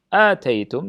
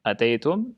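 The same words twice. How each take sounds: First: The first vowel is said long. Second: The first vowel is said short. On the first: You gave what was agreed. "dari kata ita" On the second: You came or were present. "dengan pendek artinya hadartum"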